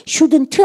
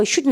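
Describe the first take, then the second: First: "shouldn't" with the last t released, "shudn-tu"; wrong, final T sounded. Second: "shouldn't" ending on the n, "shudn"; silent final T. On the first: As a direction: add an audible t at the end of "shouldn't". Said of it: "shouldn't 안 하고". ("shouldn't" 끝의 t를 "트"로 소리 내서) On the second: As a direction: drop the t at the end of "shouldn't". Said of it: "shouldn't 하시면 돼요". ("shouldn't"를 t 없이 "슈든"으로) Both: Shown as a demonstration.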